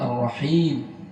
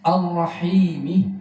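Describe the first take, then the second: First: The word ends on a consonant after a long vowel. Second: The word ends with a short final vowel. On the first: The reading stops at this word. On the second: The reading continues without stopping.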